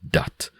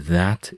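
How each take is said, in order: First: It is said in a Jamaican accent. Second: It is said in a standard English accent.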